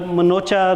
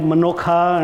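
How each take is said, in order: First: The name is said with a 'ch' sound. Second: The name is said with a 'kh' sound. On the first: This is how the family says the name. "last name" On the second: This is how people abroad say the name. "they call it Manokha"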